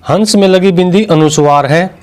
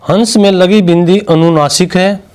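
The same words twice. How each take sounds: First: हंस with a clear न sound before स. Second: हंस with the vowel through the nose, no full न; nasal vowel. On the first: Teacher showing the अनुस्वार in हंस. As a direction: say हंस with a plain न. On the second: Teacher showing the अनुनासिक in हंस. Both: Shown as a demonstration. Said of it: "दोनों की ध्वनियों में अंतर पहचाने".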